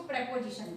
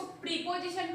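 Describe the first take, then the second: First: "प्रीपोजिशन" said with "preh" as its first syllable; short-e pronunciation. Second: "प्रीपोजिशन" with a long "pree" first syllable; long-ee pronunciation. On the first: Teacher showing students the other reading, "प्रीपोजिशन" said as "preh-position". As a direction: open "प्रीपोजिशन" on "preh", not "pree". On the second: Teacher showing students how some people read it, "प्रीपोजिशन" with "pree". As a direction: say "प्रीपोजिशन" opening on "pree", as in "tree". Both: Shown as a demonstration. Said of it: "कुछ लोग इसको प्रीपोजिशन पढ़ते हैं".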